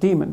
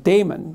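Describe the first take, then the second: First: It is pronounced like 'demon'. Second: It is not pronounced like 'demon'. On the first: The speaker calls it right. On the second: The speaker calls it wrong.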